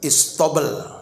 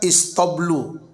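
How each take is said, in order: First: The word ends on a consonant sound. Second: The word ends with a final vowel sound. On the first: The reader stops on the word. "diwakafkan istobel" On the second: The word is read on without stopping. "kalau dibaca istoblu"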